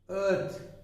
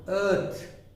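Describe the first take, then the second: First: The vowel is a long central er sound. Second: The same.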